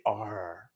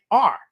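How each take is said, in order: First: "R" drawn out with a hard R sound; "R" held long and low; dragged R. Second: "R" said short as an open ah; just say "R", no drag on it; "R" cut short, Boston style; undragged R. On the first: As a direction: drag out the "R". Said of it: "We don't say R". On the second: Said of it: "we just say R". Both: Shown as a demonstration.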